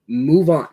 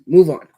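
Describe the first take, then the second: First: Louder, with weight on "Move"; firm, fed-up demand. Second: Loud and sharp, hitting "Move" hard; fed-up shout. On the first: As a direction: press down on "Move". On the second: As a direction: bark "Move on" at them. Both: Real, not acted. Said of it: "give it a rest already".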